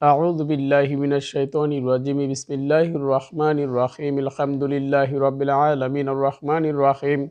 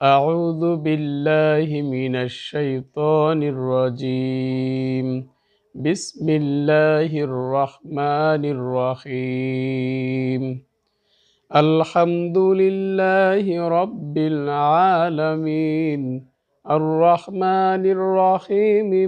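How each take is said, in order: First: It is recited quickly, with sounds running together. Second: It is recited at a moderate, middle speed. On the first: "এভাবে তেলাওয়াত করাকে হাদর বলে" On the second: "মধ্যম গতিতে তেলাওয়াত করাকে তাদবির বলে"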